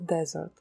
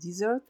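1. Ударение на первом слоге. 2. Ударение на втором слоге. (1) "а оно произносится «desert»" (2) "слово «пустыня» произносится не «desert»"

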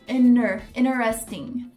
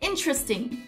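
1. O primeiro T é apagado. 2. O primeiro T é pronunciado. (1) "Você não fala o T, o primeiro T" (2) "pensa que você juntou toda a palavra no liquidificador"

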